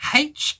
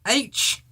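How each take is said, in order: First: The letter name begins with an h sound. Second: The letter name begins with a vowel sound. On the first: "I rather say it with a H sound" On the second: "or if you prefer H, different people say it differently"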